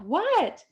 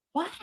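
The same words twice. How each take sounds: First: Mild yell, pitched way up; retold yell. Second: Said in the usual way. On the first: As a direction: call back "what" high, as if to another room. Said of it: "and I yelled". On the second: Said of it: "And I was like".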